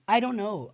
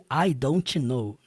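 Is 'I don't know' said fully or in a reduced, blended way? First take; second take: reduced; full. First: The words are reduced and blended together. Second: Each word is pronounced fully and separately. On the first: "essa pronúncia da vida real mesmo" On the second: "ao invés de"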